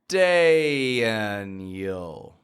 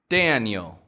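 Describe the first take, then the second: First: The name is said very slowly. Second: The name is said at a quicker pace. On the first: "I'm going to say it in super slow motion" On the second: "and then I'm going to say it quicker"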